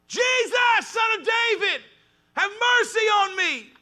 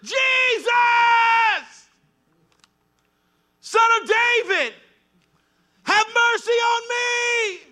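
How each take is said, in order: First: It is said at a softer volume. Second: It is said at a louder volume.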